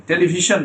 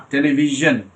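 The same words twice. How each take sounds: First: টেলিভিশন with voiceless sh, "televi-shun"; wrong sh sound. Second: টেলিভিশন with voiced zh, "televi-zhun"; correct zh sound. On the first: Teacher mimicking the mistake, "televi-shun". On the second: Teacher correcting students, voiced "televi-zhun". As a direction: buzz the end of টেলিভিশন, "zhun". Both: Shown as a demonstration. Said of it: "টেলিভিশন না".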